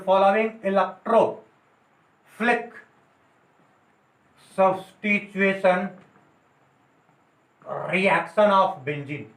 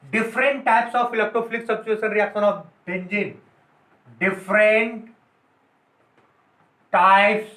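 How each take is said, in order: First: Very slow, with long gaps between words; teacher gives the correct heading slowly for notes; slow dictation. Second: Slow, word by word, so the class can write it down; the rejected heading read out slowly for notes; slow dictation. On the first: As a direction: dictate "following electrophilic substitution reaction of benzene" word by word. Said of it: "लिख सकते हो". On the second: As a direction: dictate "Different types of electrophilic substitution reaction of benzene" slowly, each word apart. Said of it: "different types नहीं बोल सकते हो". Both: Shown as a demonstration.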